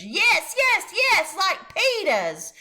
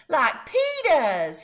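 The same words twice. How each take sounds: First: Put-on high, loud child's insistence; toddler hollering. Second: Put-on high, slow toddler voice; little kid's demand. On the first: Fudge hollering back at the salesman. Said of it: "Fudge hollered". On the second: Fudge telling his mother which shoes he wants. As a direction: say it like a small child deciding. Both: A narrator's reading.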